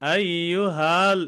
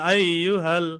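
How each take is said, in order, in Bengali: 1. 'ha'-র স্বরটি টেনে লম্বা করা হয়। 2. 'ha'-র স্বরটি ছোট রাখা হয়। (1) "এরকম বলবো না" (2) "এখানে টান হবে না"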